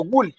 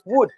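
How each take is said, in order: First: The word is said with an L sound. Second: The word is said without an L sound. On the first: The speaker calls it wrong. "no se pronuncia would" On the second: The speaker calls it right. "es would, sin pronunciar la L"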